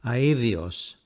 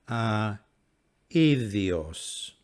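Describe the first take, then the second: First: The word is said quickly, vowels blending smoothly. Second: The word is said slowly, vowels slightly apart. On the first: "And now speaking at normal speed" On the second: "Speaking slowly again"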